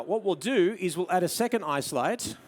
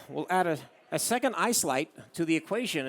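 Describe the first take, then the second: First: Said in the usual way. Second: Lightly put-on American twang through the nose; playful imitation of a nasal American; nasally American accent. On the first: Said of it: "every American talks like that". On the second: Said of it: "every American talks like that with a nasally accent".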